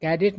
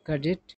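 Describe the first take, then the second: First: "कैडेट" with a full open first vowel, KAI-det; wrong pronunciation. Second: "कैडेट" with a short unstressed first vowel, kuh-DET; correct pronunciation. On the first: Teacher rejecting a common mistake, "कैडेट" said with full "कै". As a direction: say "कैडेट" with a clear "कै" at the start. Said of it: "नहीं". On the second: Teacher correcting the mistake, "कैडेट" said kuh-DET. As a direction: say "कैडेट" as "कडेट", not "कै". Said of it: "कैडेट नहीं". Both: Shown as a demonstration.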